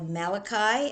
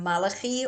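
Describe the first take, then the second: First: The name is pronounced the English way. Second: The name is pronounced the Hebrew way.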